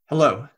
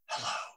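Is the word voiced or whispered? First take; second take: voiced; whispered. First: It is said with a normal voice. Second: It is whispered with only air.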